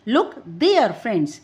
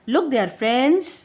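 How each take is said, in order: First: The word there carries the main stress. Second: The word friends carries the main stress. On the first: Look there, not here or somewhere else. "Look there not here और somewhere else." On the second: The friends are addressed, not anybody else. "Is addressing the friends and not anybody else around."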